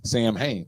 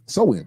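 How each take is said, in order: First: Every letter is sounded, like 'Sam Hain'. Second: It sounds like 'sew-in', with letters silent. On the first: The speaker calls it wrong. "I was pronouncing all of it because it's spelled S A M H A N" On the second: The speaker calls it right. "it's pronounced like a woman's weave"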